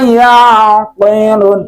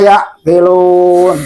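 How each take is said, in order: First: The middle consonant is held without a break. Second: The middle consonant is cut off abruptly. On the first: The speaker calls it right. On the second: The speaker calls it wrong.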